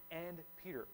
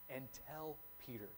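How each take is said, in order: First: "and" stressed, falling onto "Peter"; "and Peter" with a pointed stress on "and". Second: "And tell Peter" said much softer, gently; softly, as a personal message to Peter; hushed, tender "Peter"; tender aside. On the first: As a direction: lean on "and" as if singling Peter out. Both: Shown as a demonstration. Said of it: "he specifically mentions".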